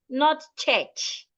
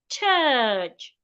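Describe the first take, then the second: First: The vowel is short, not uh. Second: The vowel is long, like uh. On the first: The speaker calls it wrong. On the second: The speaker calls it right. "the U and the R there sounds uh"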